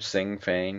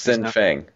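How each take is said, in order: First: The first word ends in an ng sound. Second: The first word ends in an n sound. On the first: The speaker calls it wrong. "Am I saying that right?" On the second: The speaker calls it right. "no G in the first"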